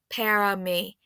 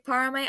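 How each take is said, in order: First: It is said as para followed by 'me'. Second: It is said as one blended word, Parmesan-like. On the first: The speaker calls it right. "Para and me" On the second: The speaker calls it wrong. "I actually used to think that parame was the way to pronounce it"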